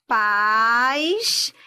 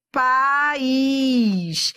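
First: PAIS as one long gliding syllable, stressed on the A. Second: PAÍS split pa-ís, stressed on a long Í; two syllables. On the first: Teacher contrasting pais with país, one syllable. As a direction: say pais as a single stretched diphthong. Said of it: "é diferente de país". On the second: Teacher contrasting país with pais, two syllables. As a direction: break país into a hiatus, pa-íís. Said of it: "Paz é diferente de". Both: Shown as a demonstration.

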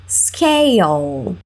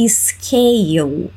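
First: "Scale" ending on a firm L, tongue behind the teeth; clear final L. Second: "scale" ending in a U sound, like "skeu"; wrong pronunciation. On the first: Teacher modelling the word for students, firm final L. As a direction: press the L at the end of "Scale". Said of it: "enfatizando esse L no final". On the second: Teacher showing students the common mistake, "skeu". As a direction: end "scale" on a vowel, no L. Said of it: "também não falamos". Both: Shown as a demonstration.

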